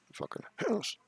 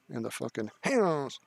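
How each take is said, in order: First: Squeaky, much higher mocking repeat; mock echo. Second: Said in the usual way. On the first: Streamer mockingly echoes the chat name, high and squeaky. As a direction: toss it back in a high silly voice.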